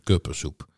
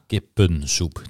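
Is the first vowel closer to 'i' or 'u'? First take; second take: u; i. First: The first vowel is a rounded u-like sound. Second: The first vowel is a short front i sound. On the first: The speaker calls it wrong. "niet kuppensoep" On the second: The speaker calls it right.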